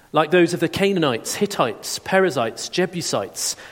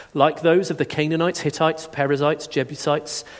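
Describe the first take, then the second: No difference in how they are said.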